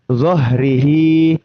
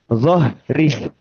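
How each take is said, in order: First: The word ends in a long 'hee' vowel. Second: The word ends in a bare h sound. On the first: The reader continues without stopping. "ketika dibaca tanpa kaidah wakof, kita akan bacanya zohrihi. Hi-nya di situ sebetulnya panjang" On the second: The reader stops on this word. "kalau diwakofkan, nanti eh, kita bacanya menjadi zohri. Ya, haknya sukun"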